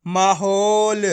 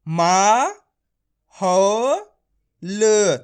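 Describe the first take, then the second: First: माहौल as one slow, drawn-out word; blended syllables. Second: मा, हो, ल each stretched alone; syllable by syllable. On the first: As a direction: join मा-हौ-ल without pauses, stretching हौ. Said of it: "तो बताइए मिलके क्या बनेगा". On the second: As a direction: pause fully between मा, हो and ल. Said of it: "डायरेक्ट मात्रा का उच्चारण करके पढ़ेंगे". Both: Shown as a demonstration.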